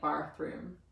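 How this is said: It is said in an Australian accent. "They say it with an R. It's like bathroom. Like ball"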